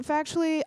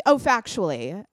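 First: Said in the usual way. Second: Sudden recognition. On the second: Real, not acted.

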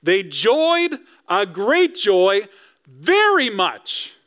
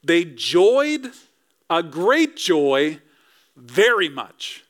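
First: Over-the-top joy. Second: Each word set apart with pauses, "joyed" and "joy" leaned on; emphatic slow reading. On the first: Preacher acts out the wise men's joy, over-the-top delighted. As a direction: burst with Elf-like glee. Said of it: "It's like Elf with Will Ferrell". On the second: Preacher to congregation, slow emphatic phrase. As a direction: spell it out slowly for emphasis. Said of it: "That's pretty emphatic". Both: Shown as a demonstration.

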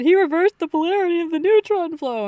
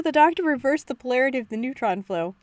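First: Gushing, high and loud; excited. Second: Said in the usual way. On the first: Retold or imitated. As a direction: blurt it out thrilled. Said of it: "I said". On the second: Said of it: "I had to pause the episode".

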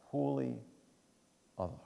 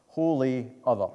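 First: "Holy other" repeated softer, "Holy" lifted then clipped; a softer second "Holy other"; quiet repeat. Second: "Holy other" said loud and high, "Holy" hit with a falling tune; stressed term. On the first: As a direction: echo "Holy other" gently to let it land. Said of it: "That's what holy means". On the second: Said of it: "phrase that theologians use is holy". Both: Shown as a demonstration.

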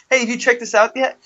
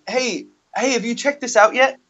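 First: Higher, cheery rising hook; sing-song pitch to a stranger; sales pitch voice. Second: Higher, cheery canvasser call; sales pitch voice. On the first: Canvasser repeating his line to a passerby, high and chipper. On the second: Canvasser hailing theater crowd, high and chipper. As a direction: chirp it at passing strangers. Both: Retold or imitated. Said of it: "That was my".

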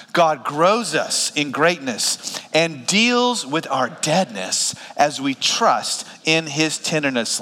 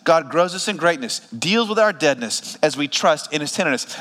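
First: Slow, spaced phrases for reading along. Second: Said in the usual way. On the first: Shown as a demonstration. Pastor leading the congregation reading aloud together, slow read-along. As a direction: lead the room through it slowly, phrase by phrase. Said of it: "read this out loud with me". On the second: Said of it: "Let's break down that sentence".

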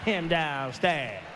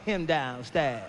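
First: Put-on very low, very slow toddler mumble; slow low mock toddler. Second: Put-on low, slow, mumbled little-kid voice; slow low mock toddler. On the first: Comic repeats the toddler's line to the crowd, slow low mumble. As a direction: repeat it like a kid who won't say Daddy. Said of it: "Who the fuck is him?". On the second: Two-year-old telling sister where dad is, slow low mock mumble. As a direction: drag it out like a sulky toddler. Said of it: "He gonna tell her".

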